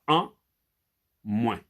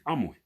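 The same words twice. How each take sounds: First: The two words are split by a short break. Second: The two words run together without a break. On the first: The speaker calls it wrong. "C'est pas en moins" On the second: The speaker calls it right. "c'est en moins"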